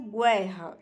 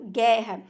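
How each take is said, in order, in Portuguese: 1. Um som de 'w' vem depois do g. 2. O g vai direto para a vogal. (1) "eu não pronuncio guerra" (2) "o U ele não é pronunciado"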